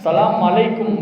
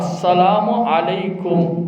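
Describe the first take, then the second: First: It starts with "sa" and runs words together. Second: It starts with "as" and says every syllable fully. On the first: The speaker calls it wrong. "சலாம் அலைக்கும், மீம் வச்சிடறாங்க" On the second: The speaker calls it right. "ஐனுடைய உச்சரிப்பை நாம் கொடுக்க வேண்டும்"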